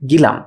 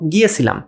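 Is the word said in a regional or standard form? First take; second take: regional; standard. First: The word is said in a shortened regional form. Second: The word is said in its full standard form. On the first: The speaker calls it wrong. "এটার আঞ্চলিক" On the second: The speaker calls it right. "আরেকটা শব্দ"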